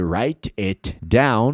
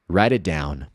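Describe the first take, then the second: First: The t at the end of it is pronounced. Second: The t at the end of it is dropped. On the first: "ao invés de write it down" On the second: "você vai ouvir assim"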